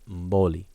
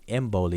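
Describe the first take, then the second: First: The word starts with the mouth closed. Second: The word starts with the mouth open. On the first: The speaker calls it right. "instead of Mboli. You start with your mouth closed" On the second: The speaker calls it wrong. "People would pronounce his last name Mboli"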